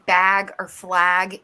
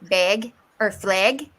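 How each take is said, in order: First: The vowels sound standard, not Midwestern. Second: The vowels sound Midwestern, not standard. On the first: "instead of saying" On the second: "you say bag or flag. That's the Midwest accent"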